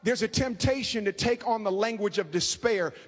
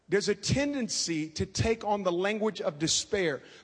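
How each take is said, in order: First: It is said fast. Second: It is said slowly.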